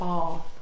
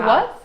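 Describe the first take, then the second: First: The vowel is long, like 'bahth'. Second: The vowel is short, like 'cat'. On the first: "avoid the R of like bath" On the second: "or I would say"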